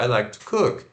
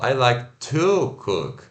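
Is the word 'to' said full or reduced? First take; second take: reduced; full. First: The word 'to' has a weak, reduced vowel. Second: The word 'to' has a full vowel. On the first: The speaker calls it right. "A gente fala" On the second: The speaker calls it wrong. "a gente não fala"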